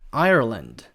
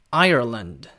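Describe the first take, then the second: First: It has an American accent with a curled r. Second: It has an American accent with a curled r.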